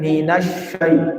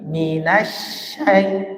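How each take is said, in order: First: The sh sound is said thick and heavy. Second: The sh sound is said thin and light. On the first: The speaker calls it wrong. "jangan minasyai" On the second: The speaker calls it right. "tapi minasyai, tipis"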